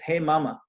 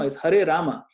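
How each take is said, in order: First: The words are slurred, with sounds dropped. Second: The words are said clearly, every sound present. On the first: The speaker calls it wrong. "we slaughter the name itself. Not good" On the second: The speaker calls it right. "Pronounce nicely"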